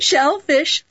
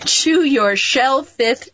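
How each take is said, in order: First: Said in the usual way. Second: Shellfish botched as "shellfith", slow and higher; tongue-tied slip. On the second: Real, not acted. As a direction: slowly attempt shellfish but end it in "th". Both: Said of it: "I can't say it".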